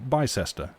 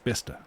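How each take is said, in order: First: The name is said just as it is spelled. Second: The name is said differently from its spelling. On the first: The speaker calls it wrong. "which is written Bicester, and if you pronounce it like that, you'd think you're correct, but no" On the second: The speaker calls it right. "someone from there goes, no, no, no, it's Bicester"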